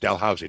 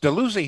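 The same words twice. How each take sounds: First: The name is said the East Coast way. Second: The name is said the Ottawa way. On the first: This is how it is said on the East Coast. "but in the East Coast, it's Dalhousie" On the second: This is how it is said in Ottawa. "It's Dalhousie here in Ottawa"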